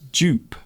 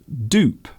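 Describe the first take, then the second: First: The word begins with a J-like sound. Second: The word begins with a plain D sound. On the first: "the sound is almost like J. ... in British English, that's the way we pronounce it" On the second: "in American English, they will pronounce this as dupe"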